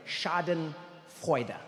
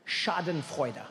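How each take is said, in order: First: Schadenfreude said very slowly, split in two; slow, deliberate Schadenfreude; drawn out. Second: Said in the usual way. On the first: Shown as a demonstration. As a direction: spell out Schadenfreude slowly with a pause inside. Repeats the word for emphasis.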